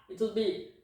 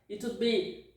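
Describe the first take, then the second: No difference in how they are said.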